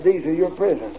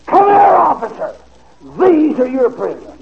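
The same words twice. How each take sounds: First: Said in the usual way. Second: A sharp, high yell at the officer; the mayor shouting for the officer, louder and higher; retold scream. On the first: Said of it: "Now think of it". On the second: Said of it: "And he screamed".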